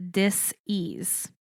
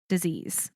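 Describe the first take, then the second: First: "dis-ease" pulled apart with a gap before "ease"; split into two words. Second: Said in the usual way. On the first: Shown as a demonstration. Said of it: "space E A S E".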